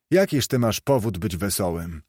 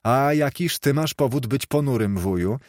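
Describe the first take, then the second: First: Scornful challenge. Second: Higher-pitched, teasing comeback question; playful retort. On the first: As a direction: challenge his right to be merry. Scrooge challenges the cheerful nephew. (pogardliwe, zaczepne pytanie) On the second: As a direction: turn the challenge back on uncle. Nephew turns the question back. (żartobliwa, wyższa riposta) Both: A narrator's reading.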